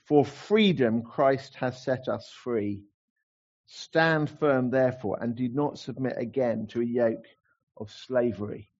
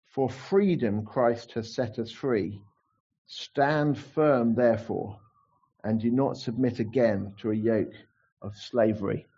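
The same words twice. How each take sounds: First: Slow, proclaimed like a slogan; slogan verse. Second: Slow, solemn verse reading; scripture reading. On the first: Shown as a demonstration. Preacher proclaiming the theme verse as a slogan, slow. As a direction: declare it slowly like a rallying cry. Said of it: "great slogan verse". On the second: Acted. Preacher reading the key verse to the church, slow and solemn. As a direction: read it slowly, weighing each word.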